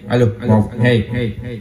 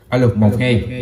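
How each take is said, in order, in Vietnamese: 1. Giọng có echo nhiều hơn. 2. Giọng có echo ít hơn.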